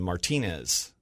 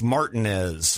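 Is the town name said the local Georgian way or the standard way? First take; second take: standard; local Georgian. First: The name is said the standard Spanish-style way. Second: The name is said the local Georgian way. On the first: "pronounce it the proper way" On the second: "Georgians don't pronounce it that way"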